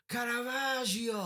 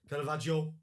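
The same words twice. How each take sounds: First: It is said in an Italian accent. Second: It is said in a North Manchester accent.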